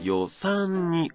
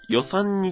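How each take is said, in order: First: The first syllable is low, the next high. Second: The first syllable is high in pitch. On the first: The speaker calls it right. "2 個目と3 個目が高い" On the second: The speaker calls it wrong. "予が今高かったので"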